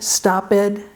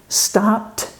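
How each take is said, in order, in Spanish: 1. La terminación se pronuncia como una sílaba extra. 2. La terminación se pronuncia como un sonido t. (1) "es un error" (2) "la ed se va a pronunciar como T"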